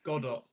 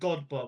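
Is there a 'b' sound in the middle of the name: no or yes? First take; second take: no; yes. First: No 'b' sound comes before the last syllable. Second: A 'b' sound comes before the last syllable. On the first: The speaker calls it right. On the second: The speaker calls it wrong.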